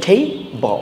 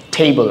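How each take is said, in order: First: "table" parted into two syllables, tay and ble; split syllables. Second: Said in the usual way. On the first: Shown as a demonstration. Teacher showing learners the two syllables, split syllables.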